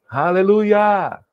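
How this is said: It is said with an American English accent.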